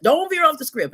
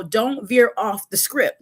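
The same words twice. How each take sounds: First: Higher, mock-insistent repeat; quoted rule again. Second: Slow, deliberate warning; quoted rule. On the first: Repeating the boss's rule, higher and mock-nagging. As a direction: push the repeat up like a nag. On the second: Retold or imitated. Repeating the boss's rule, slow and deliberate. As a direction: spell out the rule slowly. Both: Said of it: "they always tell you".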